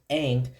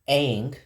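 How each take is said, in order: The two takes are said the same way.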